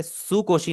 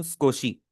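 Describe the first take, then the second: First: सुकोशी with every vowel sounded, su-ko-shi; teacher shows सुकोशी as the wrong su-ko-shi; wrong full u. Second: स्कोशी said skoshi, u dropped after s; teacher gives the right स्कोशी, skoshi; silent u. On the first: Teacher shows students the mistake, full u voiced. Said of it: "मैं इसे सुकोशी नहीं बोल रहा". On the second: Teacher gives the class the correct form, u silent. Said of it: "मैं बोल रहा हूँ स्कोशी". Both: Shown as a demonstration.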